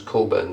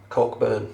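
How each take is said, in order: First: The CK sound is silent in the name. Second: The CK sound is pronounced in the name. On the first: The speaker calls it right. "The C K is silent in Western Australia" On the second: The speaker calls it wrong. "No, it's not"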